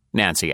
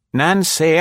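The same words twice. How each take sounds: First: Said in the usual way. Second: Higher, louder composed matron calling a name; calm older lady. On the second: A narrator's reading. Nora calling Nancy by the body, calm and higher. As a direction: call her name with calm authority. Nora's voice, high.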